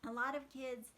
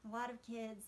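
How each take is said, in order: The two takes are said the same way.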